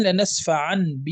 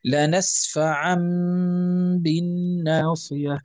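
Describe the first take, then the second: First: "لنسفعن ب" with a plain n before the b; written n. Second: Slow "لنسفعن بالناصية", n becoming a long hummed m; iqlab recitation. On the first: Teacher introduces the next example, unconverted n. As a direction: say "لنسفعن ب" without the long hum. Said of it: "الآن". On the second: Teacher recites the example, long ghunna. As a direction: hold the nasal m at the end of "لنسفعن" before b. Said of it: "نقول". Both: Shown as a demonstration.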